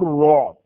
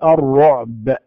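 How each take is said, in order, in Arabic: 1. لا يُسمع الحرف الأخير تقريبًا. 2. ينتهي الحرف الأخير بقلقلة واضحة. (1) "أين الصوت؟ أين الحرف الأخير؟" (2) "إذا اتضح الصوت"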